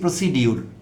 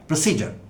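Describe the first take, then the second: First: The middle consonant is a d-y sound. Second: The middle consonant is a j sound. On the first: The speaker calls it wrong. "সেটি একটি বাজে উচ্চারণ কোনো উচ্চারণই না" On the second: The speaker calls it right. "সঠিক উচ্চারণ হলো"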